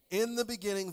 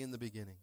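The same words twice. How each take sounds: First: "In the beginning" proclaimed louder and higher; emphatic call. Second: Said in the usual way. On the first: Shown as a demonstration. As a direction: lift "In the beginning" like a preacher's call. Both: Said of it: "somebody say".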